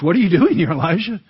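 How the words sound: It sounds surprised and puzzled.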